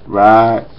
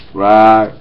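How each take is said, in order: Both takes have the same delivery.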